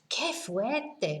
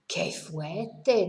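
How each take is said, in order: First: It sounds delighted and impressed. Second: It sounds dismayed and disapproving. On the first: The speaker really likes it. "Gosh, wow, I, I really like it" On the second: The speaker does not like it at all. "How awful, if you like, or how terrible"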